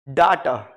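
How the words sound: It is said with a British 'dah' vowel.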